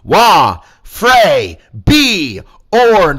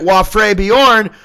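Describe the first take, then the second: First: It is said slowly, syllable by syllable. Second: It is said at normal speed, run together. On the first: "I'll say that again slow for the people in the back" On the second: "Put them together"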